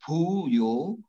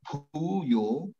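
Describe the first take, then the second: Both takes have the same delivery.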